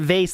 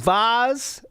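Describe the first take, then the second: First: The vowel rhymes with face. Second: The vowel does not rhyme with face.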